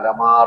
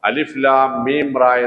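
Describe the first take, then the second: First: The letters are blended into one word. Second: Each letter name is said separately. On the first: The speaker calls it wrong. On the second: The speaker calls it right.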